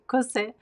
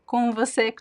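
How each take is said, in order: First: The phrase is shortened, with sounds dropped. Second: Every syllable of the phrase is said.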